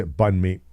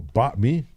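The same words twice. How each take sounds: First: "banh mi" with the n sounded; simplified pronunciation. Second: "ba mi" with no n, rising on "mi"; N left out. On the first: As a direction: say "banh mi" as "bun mee", n and all. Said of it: "I just say". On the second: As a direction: try "ba mi" tentatively, dropping the n. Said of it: "I don't pronounce the N". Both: Shown as a demonstration.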